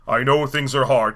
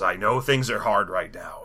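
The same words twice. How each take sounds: First: Fuller-voiced mock-grand villain; put-on solemn, commanding tone; Christopher Lee. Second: Low, slow, soft gravity; mock-grave deep murmur; Christopher Lee. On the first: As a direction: project it like a stately screen lord. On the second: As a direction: deliver it as a hushed, solemn lord. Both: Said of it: "he's kind of a Christopher Lee type".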